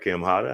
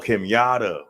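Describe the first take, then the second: First: The surname begins with an H sound. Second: The surname begins with a Y sound. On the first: The speaker calls it wrong. "Did I say it right? I'm bad with names" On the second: The speaker calls it right. "Oh, okay. Sorry"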